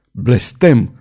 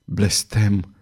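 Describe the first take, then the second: First: A contained roar, falling at the end; roared curse. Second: Softer, slower falling curse; repeated curse. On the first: Queen curses at the astrologer's doubt, mildly roared. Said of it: "răgni regina". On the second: Queen repeats her curse to the astrologer, subdued. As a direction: let the repeated curse sink low in volume. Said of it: "repetă regina". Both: A narrator's reading.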